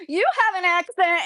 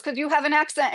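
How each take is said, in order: First: High-pitched mock comeback, stress on YOU; mimicked retort. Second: Said in the usual way. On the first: Man with an accent retorts to his questioner, mimicked retort. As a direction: throw it back in a higher voice, imitating him. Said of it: "the guy that had an accent". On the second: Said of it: "And the guy goes".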